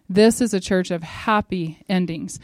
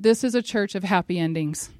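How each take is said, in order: First: "This is a church of happy endings" said slowly, each word weighed; slow it down and lean on every word; slow emphatic repeat. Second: Said in the usual way. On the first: Shown as a demonstration.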